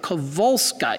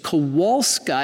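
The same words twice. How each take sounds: First: The W is pronounced as a V. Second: The W is pronounced as an English W. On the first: "in Polish, the W sounds like a V" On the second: "as we would say it"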